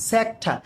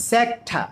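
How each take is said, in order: Both takes have the same delivery.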